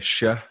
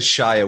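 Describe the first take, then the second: First: It is said in a Yorkshire English accent. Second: It is said in an American English accent. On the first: This is how locals say it. "we say Shire" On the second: This is how outsiders say it. "We don't say Shire"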